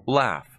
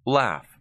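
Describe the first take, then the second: The two takes are said the same way.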